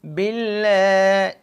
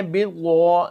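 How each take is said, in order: First: باللہ held long, with the lam doubled; the proper tajweed باللہ; correct pronunciation. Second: بالغو with a wrong gh sound in place of the heavy lam; the error of saying بالغو; wrong pronunciation. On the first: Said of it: "ہم نے اس کو باللہ کرنا ہے". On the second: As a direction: demo the mistaken بالغو. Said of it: "یہ تو غلط ہو جائے گا". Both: Shown as a demonstration.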